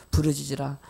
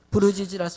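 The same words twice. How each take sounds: First: 부르짖으라 read lower as a quoted verse; 부르짖으라 dropped low as scripture. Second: Said in the usual way. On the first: Shown as a demonstration. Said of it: "예레미야서 삼십삼 장 삼 절에 보면요".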